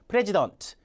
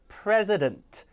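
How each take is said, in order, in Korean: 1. 중간 자음은 s 소리입니다. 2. 중간 자음은 z 소리입니다. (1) "이렇게 읽으면 상당히 원어민기에선 벗어나죠" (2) "pre의 강세면 요 음절은 z가 됩니다"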